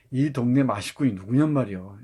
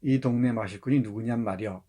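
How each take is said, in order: First: "누구냔" lifted and stressed, Chungcheong tune, louder; lively dialect intonation. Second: Said in the usual way. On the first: Shown as a demonstration. Teacher demonstrating the right, lively dialect intonation after the flat one. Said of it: "이렇게 읽어야 되죠". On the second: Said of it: "인토네이션을 살리지 않고 그냥 읽으면 정말 맛이 뚝 떨어져".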